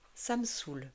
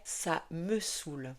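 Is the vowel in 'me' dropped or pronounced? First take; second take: dropped; pronounced. First: The vowel in 'me' is swallowed. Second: The vowel in 'me' is fully pronounced. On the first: "à l'oral, on a tendance à avaler les sons et notamment le e" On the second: "La forme complète serait"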